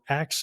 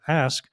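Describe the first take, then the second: First: The word ends with a 'ks' sound, like 'ax'. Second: The word ends with an 'sk' sound, like 'ask'. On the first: The speaker calls it wrong. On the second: The speaker calls it right.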